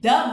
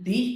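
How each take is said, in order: First: The word has a short, weak vowel, 'thuh'. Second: The word has a long 'ee' vowel, 'thee'. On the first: The next word starts with a consonant. "Consonants കൊണ്ട് തുടങ്ങുന്ന വാക്കുകൾക്ക് മുന്നിലാണ് T H E വരുന്നതെങ്കിൽ ദ book" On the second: The next word starts with a vowel. "ദി എന്നാണ് ഉച്ചരിക്കേണ്ടത്"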